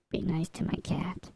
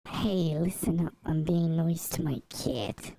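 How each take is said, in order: First: Said in the usual way. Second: Mock New York tough talk; New York accent. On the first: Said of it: "requires a New York accent". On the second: Streamer defending being nice to the cat, New York accent. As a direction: play a New Yorker laying down the law. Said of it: "why that requires a New York accent".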